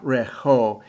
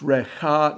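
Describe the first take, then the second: First: The word ends with an 'oh' vowel. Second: The word ends with an 'ah' vowel. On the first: The speaker calls it wrong. "not Recho" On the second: The speaker calls it right. "It's Recha"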